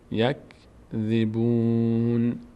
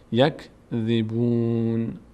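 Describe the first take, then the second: Both takes have the same delivery.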